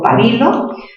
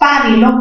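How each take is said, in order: First: The stress is on the second syllable. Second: The stress is on the first syllable.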